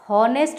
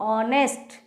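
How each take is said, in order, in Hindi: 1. यह शब्द एक साफ़ सुनाई देने वाली "h" की आवाज़ से शुरू होता है। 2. यह शब्द एक स्वर से शुरू होता है, इसमें "h" नहीं है। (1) "इसको भी हम हॉनेस्ट नहीं पढ़ते हैं" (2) "एच जो है वो साइलेंट वर्ड है"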